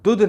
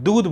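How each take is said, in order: First: The vowel is cut short. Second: The vowel is drawn out long. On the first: The speaker calls it wrong. "आप दूध नहीं बोल रहे" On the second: The speaker calls it right. "ऊ की मात्रा लंबी खींच रहे हैं"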